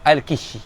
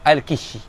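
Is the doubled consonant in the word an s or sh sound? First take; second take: sh; sh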